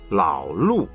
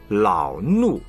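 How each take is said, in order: First: The first syllable begins with an l sound. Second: The first syllable begins with an l sound.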